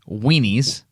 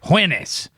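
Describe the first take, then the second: First: The word starts with a plain w sound. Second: The word starts with a breathy h-like wh sound. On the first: "He wouldn't say weenies" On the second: "There's an H in the front"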